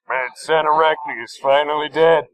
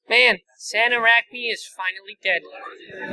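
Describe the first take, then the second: First: It is said in a deep, pitch-lowered voice. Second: It is said in a plain, youthful voice. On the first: This is the processed take that sounds like a cop. The speaker calls it right. "I pitch filtered the shit out of that" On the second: This is the original unprocessed reading. The speaker calls it wrong. "at the time I was fourteen"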